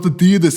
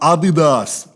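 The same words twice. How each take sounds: First: It is said the American way. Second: It is said the German way.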